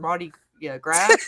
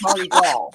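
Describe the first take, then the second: First: Gras is said like English grass, with s. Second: Gras is said the French way, without s. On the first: It is read the way it is spelled. The speaker calls it wrong. "it's spelled to me like you'd like" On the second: It is a French name. The speaker calls it right. "but it's Mardi Gras. Like it's French"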